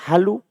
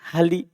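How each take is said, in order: First: The word ends in an added u vowel. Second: The word ends in an added i vowel. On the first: "Jangan pernah dibaca halu" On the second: "Jangan pernah dibaca"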